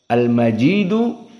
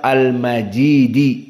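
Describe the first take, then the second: First: The word ends with a final u vowel. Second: The word ends with a final i vowel. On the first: The word is in the nominative case. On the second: The word is in the genitive case. "dengan kasrah"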